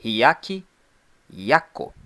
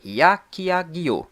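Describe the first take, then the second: First: "Hyakki Yako" in two separate parts, ending in "ko"; alternative pronunciation, "Yako". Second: "Hyakiagyo" drawn out slowly, ending in "gyo"; first pronunciation, "-gyo". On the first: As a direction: say "Hyakki Yako" with a plain k in the last syllable. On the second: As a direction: say "Hyakiagyo" with a voiced g-y in the last syllable. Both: Shown as a demonstration. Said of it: "alternativamente pronunciada".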